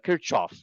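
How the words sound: It is said with an Indian English pronunciation. "In India, we call this as"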